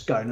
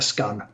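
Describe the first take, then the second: First: The vowel rhymes with cone. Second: The vowel rhymes with done. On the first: "it rhymes with cone" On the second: "I'm going to rhyme it with done"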